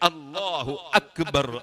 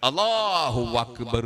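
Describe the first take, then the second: First: Akbar begins with a catch deep in the throat. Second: Allahu runs into Akbar with a w sound. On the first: The speaker calls it right. "ആ" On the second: The speaker calls it wrong. "അല്ലാഹുവിന്റെ ശേഷം വാ വാ"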